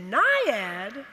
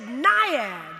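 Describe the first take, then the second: First: "Naiad?" asked with a rising tune; questioning tune. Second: Said in the usual way. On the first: Retold or imitated. Coach repeating the girl's name, "Naiad?" with a rising question. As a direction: say "Naiad?" as a surprised question that rises at the end. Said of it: "He said". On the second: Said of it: "I said".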